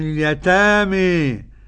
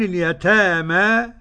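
First: The final vowel is strongly raised toward 'e'. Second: The final vowel is a fully open 'a'. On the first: "وقرأه بالإمالة بقى" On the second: "كالجماعة اللي هم غير مملين وغير مقللين"

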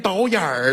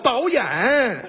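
First: The word ends with an r-colored erhua sound. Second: The word ends plainly without an r-colored sound. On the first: The speaker calls it wrong. "还导演儿了？" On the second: The speaker calls it right. "那叫导演"

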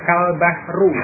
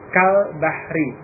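First: The last word ends with a u vowel. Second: The last word ends with an i vowel. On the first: The noun is in the nominative case. The speaker calls it wrong. "dengan membaca dhammah kal bahru" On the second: The noun is in the genitive case. The speaker calls it right. "Dia dibaca dengan kasrah al bahri"

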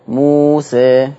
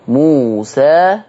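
First: The final vowel leans toward an 'e' sound. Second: The final vowel is an open 'a' sound. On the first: "والإمالة" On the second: "بالفتح"

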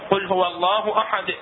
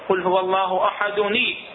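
First: The last word ends in a full stop. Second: The last word links on with an added 'ni' sound. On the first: The recitation stops at the end of the verse. "متوقف عليها بالقطع" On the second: The recitation continues into the next verse. "احدني بالدمج بالدمج بالوصل"

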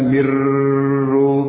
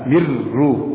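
First: The r is held long before release. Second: The r is released quickly without holding. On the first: The speaker calls it wrong. "bukan mirru" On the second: The speaker calls it right. "tidak ditahan"

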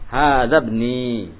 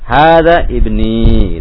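First: The words run together with ibni's first vowel dropped. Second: The words are separate, with a slightly long final i. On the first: "kalau wasol, cara baca yang betulnya" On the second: "agak panjang dikit ya"

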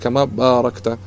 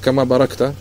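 First: The first vowel of barakta is lengthened. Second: The first vowel of barakta is short. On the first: It means you bestowed blessing. The speaker calls it right. "нужно говорить кама баракта... ба у нас с маддом" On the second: It refers to how a camel kneels down. The speaker calls it wrong. "некоторые слышал, которые говорят"

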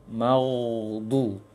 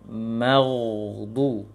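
Both takes have the same delivery.

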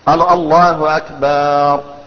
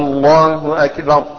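First: The vowel after B in Akbar is lengthened. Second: The first vowel of Allah is lengthened. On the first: The word comes to mean a drum. "أو قال أكبر ... أكبر معناه الطبل" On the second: It turns the phrase into a question. "لو مد الهمزة الله أكبر أسفها مش كده، يعني كأنه بيستفهم"

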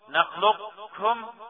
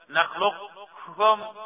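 The two takes are said the same way.

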